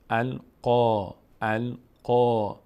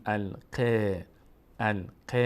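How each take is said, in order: First: القا with a long, rounded, heavy "qaw"; full heavy vowel. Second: الق with a thin, fronted "qeh"; wrong thin vowel. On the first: Teacher models the full aa after qaf, heavy vowel. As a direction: draw out القا slowly and louder, mouth opened upward for a full aa. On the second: Teacher shows what we don't say, thin vowel. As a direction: say الق with a light e-like vowel in place of the full aa. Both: Shown as a demonstration.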